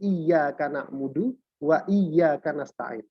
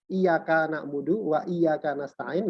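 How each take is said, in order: First: The y sound in iyyaka is held doubled. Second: The y sound in iyaka is short, single. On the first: The speaker calls it right. "Salah satu tasdid yang ditekankan" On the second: The speaker calls it wrong. "Kalau dibaca tanpa tasdid"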